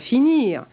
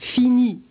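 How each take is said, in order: First: The final r is pronounced. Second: The final r is silent. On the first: This is not how it was said in the seventeenth century. "et non pas finir" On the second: This is how it was said in the seventeenth century. "où l'on prononce fini"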